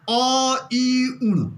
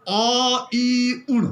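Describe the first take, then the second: First: "अ, इ, उण" each syllable split apart; अलग-अलग उच्चारण. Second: "अ ई उण" run together with halant; joined reading. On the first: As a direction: sound out अ, इ, उण separately. ("अ, इ, उण" अलग-अलग बोलें) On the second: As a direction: read अ ई उण in one breath. ("अ ई उण" एक साथ पढ़ें) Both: Shown as a demonstration. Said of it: "जैसे मैं उच्चारण कर रहा हूँ".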